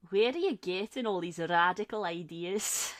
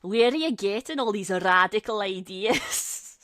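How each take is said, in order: First: Lightly voiced grumpy old man; a milder mock of an indignant older friend; hint of old-timer grumbling, at normal volume. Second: Loud imitation of a grumpy old man; mock an indignant older friend, loudly; grumbling old-timer, played big.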